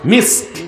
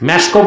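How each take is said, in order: First: It is said ending in the consonant: misk. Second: It is said with an added final vowel: meshko. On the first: The speaker calls it right. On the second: The speaker calls it wrong.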